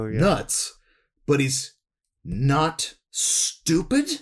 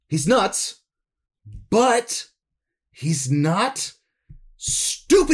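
First: The line is delivered in a moderately serious tone. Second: The line is delivered in an intensely serious tone.

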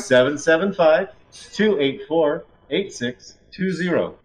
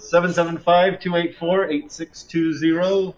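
First: The number is said more slowly. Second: The number is said at a normal, quicker pace.

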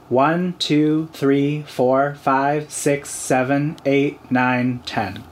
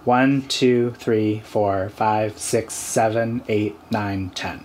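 First: The counting is in a noticeably higher pitch. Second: The counting is in a lower, usual pitch. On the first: "do it a little higher" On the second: "count to 10 in your habitual voice"

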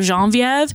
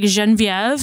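First: The name is said in the usual English pronunciation. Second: The name is said in a Moroccan-style pronunciation. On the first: "instead of" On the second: "it's kind of the Moroccan way"

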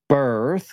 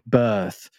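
First: The word is said with an R sound. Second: The word is said without an R sound. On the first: "with an R" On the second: "there's no real R in there"

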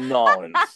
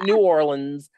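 First: The name is squeezed into two short syllables. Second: The name is said with every syllable in full. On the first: The speaker calls it right. "you got to say Nolens" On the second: The speaker calls it wrong. "Not New Orleans"

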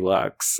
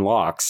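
First: The vowel is a 'u' sound. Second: The vowel is an open 'o' sound. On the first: The speaker calls it right. "no, we say lux" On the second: The speaker calls it wrong. "you corrected the way I was going to say bagels and lox"

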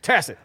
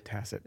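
First: The word is half-yelled under the breath. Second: The word is said plainly, in a normal voice.

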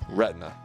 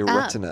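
First: The t is softened, with syllables run together. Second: The t is crisp, with three full syllables.

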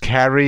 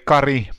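First: The R is not rolled, in an English way. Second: The R is rolled, in a Finnish way. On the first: This is how others abroad said the name. "But in London, ... I was Carrie" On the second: This is how the name is said at home. "in Finland we would say [name], which is rolling the R"

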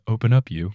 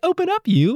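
First: It is said in a flat, bored tone. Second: It is said in a cute, playful tone.

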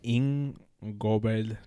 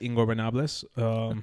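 First: The word is said slowly and deliberately. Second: The word is said at normal conversational speed.

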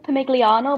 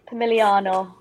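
First: The G sound is clearly pronounced. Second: The G sound is left silent. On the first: The speaker calls it wrong. "apparently you don't say the G, so I was saying it wrong" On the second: The speaker calls it right. "silent G"

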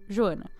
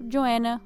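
First: The name is said with a Brazilian accent. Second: The name is said with an American accent.

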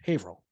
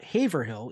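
First: The middle of the name is cut short. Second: Every syllable of the name is fully pronounced. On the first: The speaker calls it right. "we try to cut out as much in between" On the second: The speaker calls it wrong. "It's not Haverhill"

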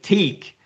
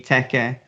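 First: The word is read with English spelling rules. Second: The word is read with Japanese syllable sounds. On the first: The speaker calls it wrong. "if you're pronouncing it in English" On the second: The speaker calls it right. "phonetically and with the hiragana in Japanese"

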